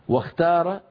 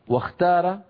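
Both takes have the same delivery.

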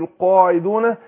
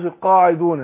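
First: The qaf and long a sound fully heavy. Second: The qaf and long a sound lighter. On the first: The speaker calls it right. "ويكون التفخيم كده" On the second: The speaker calls it wrong. "مش القاعدون"

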